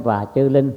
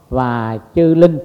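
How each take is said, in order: First: Said in the usual way. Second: "và chư linh" slow and louder, each word weighed; emphasize và chư linh. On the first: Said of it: "Tôi thêm". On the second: Shown as a demonstration. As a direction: lean into "và chư linh", drawn out and firm. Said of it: "Tôi thêm "và chư linh". (nhấn mạnh "và chư linh", chậm và to hơn)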